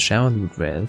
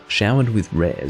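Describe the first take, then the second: First: The phrase is said quickly, in rapid repetition. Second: The phrase is said slowly and carefully enunciated. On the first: "Say showered with rares five times really fast" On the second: "you can say it slowly"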